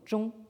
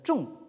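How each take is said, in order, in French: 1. Le mot est prononcé avec un ton haut et plat. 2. Le mot est prononcé avec un ton descendant. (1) "Ça désigne donc la centralité au premier ton" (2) "si vous le prononcez au quatrième ton"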